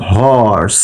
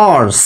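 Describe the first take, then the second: First: হর্স with a clear breathy h at the start; horse with h. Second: অর্স said with no h, starting on the vowel; wrong dropped h. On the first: Teacher shows students হর্স with the h sounded. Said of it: "এখানে উচ্চারণটা কেমন করি?". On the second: Teacher shows students the wrong অর্স without h. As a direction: drop the h and say অর্স. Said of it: "নাকি আমরা এইটা বলি". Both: Shown as a demonstration.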